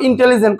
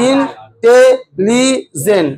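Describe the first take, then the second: First: Said in the usual way. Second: ইন্টেলিজেন্ট in four very slow beats, ইন-টে-লি-জেন্ট; split into syllables. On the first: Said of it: "কবার লাগছে". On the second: Shown as a demonstration. Teacher counts four beats for students, ইন্টেলিজেন্ট very slowly split up. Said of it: "তিনবার, চারবার".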